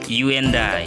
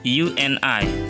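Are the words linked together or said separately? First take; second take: linked; separated. First: The words are linked together smoothly. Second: The words are said separately with breaks. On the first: The speaker calls it right. "digabungkan langsung" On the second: The speaker calls it wrong. "and dan I tidak dipisah"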